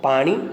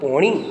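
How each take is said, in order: First: The first vowel is an open 'aa' sound. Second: The first vowel is a rounded 'o' sound.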